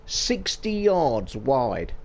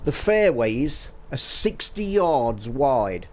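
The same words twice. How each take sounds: First: Sixty yards wide dragged out very slowly; slow heavy stress on "Sixty yards wide"; slow emphasis. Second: Slow, deadpan, dryly sarcastic; Rory's deadpan put-down, slow and dry; dry sarcasm. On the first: Real, not acted. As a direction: let "Sixty yards wide" land word by word. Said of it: "repeats the figure for emphasis". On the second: Retold or imitated. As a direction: state it slowly as if it's obvious. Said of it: "a dry sarcasm".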